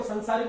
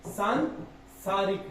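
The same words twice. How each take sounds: First: संसारिक with a short सं; wrong pronunciation. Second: Slow, soft सांसारिक with long सां; slow careful pronunciation. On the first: Teacher showing the hasty wrong form संसारिक. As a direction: clip the vowel: संसारिक. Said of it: "बोलने में ही सांसारिक होता है". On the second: Teacher stressing the long vowel for students. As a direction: stretch the आ in सांसारिक. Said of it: "आ की मात्रा आती है". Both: Shown as a demonstration.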